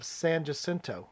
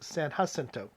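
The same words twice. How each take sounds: First: The name is said with an anglicized pronunciation. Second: The name is said with a Spanish pronunciation. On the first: This is how local Texans say it. The speaker calls it wrong. "we don't give it the proper Spanish pronunciation" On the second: This is the original Spanish pronunciation. The speaker calls it right. "more properly pronounced"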